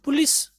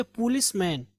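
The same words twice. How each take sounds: First: पुलिस with a short, quick first "pu"; common pronunciation. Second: पुलिसमैन starting on a long "poo"; corrected pronunciation. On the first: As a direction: say पुलिस as "pu-LIS". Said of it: "हम लोग सुनते हैं पुलिस". (पुलिस में छोटा "पु") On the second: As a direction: say पुलिसमैन as "POO-lis-man". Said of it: "पु-, okay, पुलिसमैन". (पुलिसमैन में लंबा "पू") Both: Shown as a demonstration.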